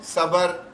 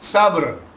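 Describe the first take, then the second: First: A short vowel is inserted between b and r. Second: The b and r run together without vowel. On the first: The speaker calls it wrong. "बा पे जबर डाल दिया, सबर नहीं है" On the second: The speaker calls it right. "ये इस तरह अदा करना है"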